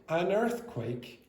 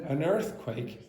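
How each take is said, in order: Both takes have the same delivery.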